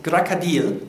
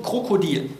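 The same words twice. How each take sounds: First: "Krakadil" with o's turned to a, stressed on the final i; slow "Krakadil", landing hard on the i; recommended Russian pronunciation. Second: "Krokodil" with full o sounds as spelt; pronounced as written. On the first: Lecturer demonstrates recommended pronunciation, "Krakadil" with stressed i. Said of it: "mit der Betonung auf dem I". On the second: Lecturer reads the Russian word as written, "Krokodil" with o sounds. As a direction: say "Krokodil" with clear o vowels. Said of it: "wirklich steht hier das Wort". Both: Shown as a demonstration.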